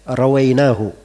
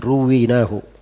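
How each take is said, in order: First: The first syllable has an 'a' vowel. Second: The first syllable has an 'u' vowel. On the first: The speaker narrated it directly himself. "Dan bisa juga dibaca rawainahu" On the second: It is found in the narrations handed down to us. "Bisa dibaca begitu, ruwinahu"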